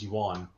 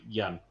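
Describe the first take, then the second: First: The word is said with two syllables, like 'yoo-an'. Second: The word is said with one syllable, like 'yen'. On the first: It is read the way it is spelled. "in the United States, because we read it as the way it's written" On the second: It is said the way native speakers say it. "but they say yen"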